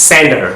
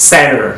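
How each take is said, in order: The two takes are said the same way.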